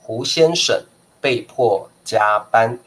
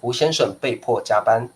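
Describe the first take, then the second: First: It is said slowly and carefully. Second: It is said fast, at natural speed.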